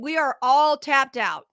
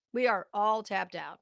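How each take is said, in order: First: Louder and higher, slowed right down, every word hammered; fed-up shout that the public has nothing left; loud exasperated declaration. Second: Said in the usual way. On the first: Real, not acted. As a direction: shout it like you're fed up with paying. Angry rant about state handouts.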